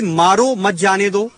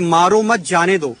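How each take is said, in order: First: The pause comes after 'maaro'. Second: The pause comes after 'mat'.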